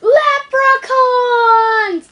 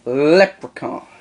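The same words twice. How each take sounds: First: Loud drawn-out leprechaun cry. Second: Stretched slowly; slow drawn-out echo. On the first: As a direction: bellow it like a cartoon leprechaun. Joke: Lep stands for leprechauns. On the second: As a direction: drag the word out slowly. Other host echoes the word. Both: Acted.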